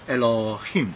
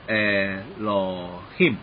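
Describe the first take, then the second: First: The first vowel is very short. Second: The first vowel is held longer.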